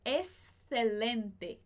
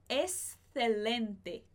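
First: The middle is said with a lisped th sound. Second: The same.

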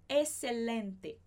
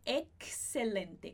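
First: The middle is said with a single s sound. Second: The middle is said with a clear ks sound. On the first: "porque a gente tem um X antes de uma consoante, só que essa consoante também já tem o som de S" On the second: "com esse KS que eu coloquei aqui"

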